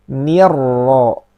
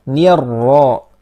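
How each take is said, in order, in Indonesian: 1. Suku kata pertama terdengar tipis dan ringan. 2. Suku kata pertama terdengar tipis dan ringan.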